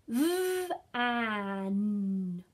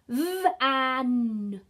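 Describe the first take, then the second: First: The sounds are said slowly and kept apart. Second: The sounds are said quickly and run together. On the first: "I'm going to pretend that I'm Fred today and I'm going to say some words in our Fred talk" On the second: "I'm going to say those sounds a bit faster now"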